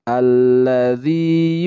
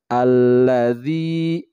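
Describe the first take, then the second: The two takes are said the same way.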